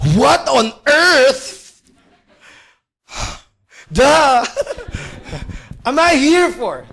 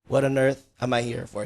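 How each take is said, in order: First: It is said with sighing, exasperated desperation. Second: It is said in a calm, even tone.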